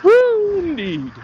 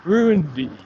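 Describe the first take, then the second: First: Mock cheer. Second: Said in the usual way. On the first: Mocking cheer at crowd.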